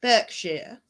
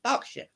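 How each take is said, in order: First: "Berkshire" read as written, BURK-shire, with an r-coloured BURK; spelled-out reading. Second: "Berkshire" said BARK-shuh, open "ah" in the first syllable and no r; proper British pronunciation. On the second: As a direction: give "Berkshire" its real local sound, BARK-shuh. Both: Shown as a demonstration. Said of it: "But it's pronounced Berkshire".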